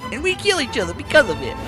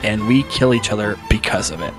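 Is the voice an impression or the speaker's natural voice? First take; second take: impression; natural. First: It is said in a put-on impersonation voice. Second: It is read in the speaker's ordinary voice.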